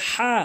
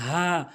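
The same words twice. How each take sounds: First: "হা" with a strong throat h; wrong pronunciation. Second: "হা" light, from the start of the throat; correct pronunciation. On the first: Teacher shows learners the mistake, forced "হা". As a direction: push the h of "হা" hard. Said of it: "ভুল উচ্চারণ". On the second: Teacher models the Arabic letter, light "হা". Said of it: "সঠিক উচ্চারণ হচ্ছে". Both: Shown as a demonstration.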